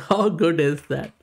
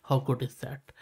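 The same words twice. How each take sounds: First: Louder, laughing through the question; laughing, delighted rhetorical question; amazed laugh. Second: Said in the usual way. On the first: Real, not acted. Same question repeated, amazed.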